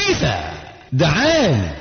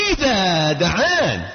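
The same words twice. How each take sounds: First: Said in the usual way. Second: دعان stretched slowly and falling; stress on دعان. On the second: Shown as a demonstration. Preacher repeating the verse for emphasis, drawn-out دعان. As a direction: linger on إذا دعان, slow and weighty. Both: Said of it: "repeats phrase stretched".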